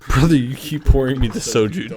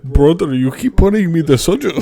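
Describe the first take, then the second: First: It is said in the speaker's ordinary accent. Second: It is said in a put-on Indian accent.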